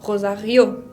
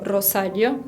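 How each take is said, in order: First: The stress is on the final syllable. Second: The stress is not on the final syllable. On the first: The speaker calls it right. "el acento tónico, va sobre la última vocal ... con esa R de la garganta" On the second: The speaker calls it wrong. "No pronuncio Rosario"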